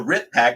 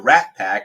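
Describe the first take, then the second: First: It is said in a put-on foreign accent. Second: It is said in the speaker's normal accent.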